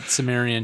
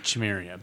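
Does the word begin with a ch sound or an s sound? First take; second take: s sound; ch sound. First: The word begins with an s sound. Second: The word begins with a ch sound.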